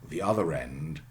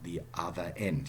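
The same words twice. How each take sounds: First: An r sound links other and end. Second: No r sound links other and end. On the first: The speaker calls it right. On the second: The speaker calls it wrong.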